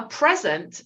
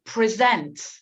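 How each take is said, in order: First: "present" as the noun, PREZ-ent; stressed first syllable. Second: "present" as the verb, pre-ZENT; stressed second syllable. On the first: Teacher contrasts the gift word "present", stress on first syllable. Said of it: "listen to the way I say present". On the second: Teacher shows how she says "present", stress on second syllable. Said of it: "listen to the way I say". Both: Shown as a demonstration.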